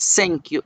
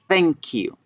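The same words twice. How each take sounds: First: The word begins with a hissing s sound. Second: The word begins with a soft th sound. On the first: The speaker calls it wrong. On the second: The speaker calls it right. "es thank you ... era una Z española"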